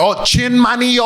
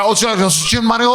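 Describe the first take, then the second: First: Put-on slow American-accented "Chin Mario"; dumb American accent. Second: Imitating her native-sounding "Chin Mario"; right pronunciation. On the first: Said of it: "I'm like the dumb American". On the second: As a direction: say "Chin Mario" mimicking a Korean speaker. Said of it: "She said it the right way".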